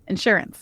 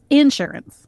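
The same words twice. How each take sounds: First: It has the ordinary non-Southern stress pattern. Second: It has a Southern stress on another syllable.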